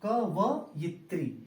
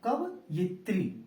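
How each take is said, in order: No difference in how they are said.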